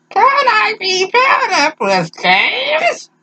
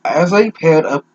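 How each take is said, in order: First: Put-on very high, slow sweet girl; squeaky drawn-out girl's plea; high girly voice. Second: Said in the usual way. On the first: Reading girl's line in voice.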